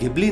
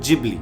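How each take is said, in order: First: The name begins with a hard 'g' sound. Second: The name begins with a 'j' sound. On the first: The speaker calls it wrong. "ये गिबली नहीं" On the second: The speaker calls it right. "इसकी correct pronunciation है studio जिबली"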